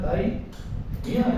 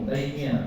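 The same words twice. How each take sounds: First: The name is split with a break inside. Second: The name is said smoothly without a break. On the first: The speaker calls it wrong. "Kalau dipisah" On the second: The speaker calls it right. "jangan dipisah, sambung"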